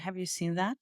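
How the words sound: The pitch drops low on "seen" before rising. It is a plain question seeking an answer. "I'm going to drop the content word, ... make it lower in pitch"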